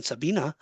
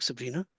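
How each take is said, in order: First: Sabina said sa-BEE-na, no r after the b; Sabina without r. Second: Sabrina said sa-BREE-na, with the r after the b. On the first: Medium offering the other name, Sabina without the r. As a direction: drop the r: Sabina. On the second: Medium unsure of the name, trying Sabrina with the r. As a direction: say Sabrina clearly with the r. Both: Shown as a demonstration. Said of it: "unless it's German".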